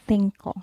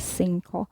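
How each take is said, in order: First: The first consonant sounds like th. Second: The first consonant sounds like s. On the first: The speaker calls it right. "but it's cinco" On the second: The speaker calls it wrong. "You don't pronounce this as cinco"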